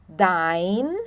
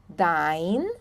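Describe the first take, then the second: The two takes are said the same way.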